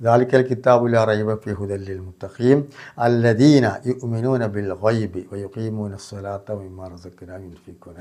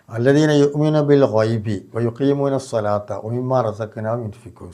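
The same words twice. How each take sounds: First: Slow, drawn-out tajweed recital fading at the end; Quran recitation. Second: Slow, measured Quranic chanting; Quran recitation. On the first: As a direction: chant the verse slowly, letting the last words fall away. Full verse recited slowly. (പതുക്കെ ഖുർആൻ പാരായണം) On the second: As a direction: draw out each word like a recitation. Quran verse recited in sermon. (ഖുർആൻ പാരായണ ശൈലി) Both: Shown as a demonstration.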